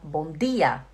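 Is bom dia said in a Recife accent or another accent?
Recife accent. It is said in a Recife accent. "No Recife, o pessoal fala bom dia"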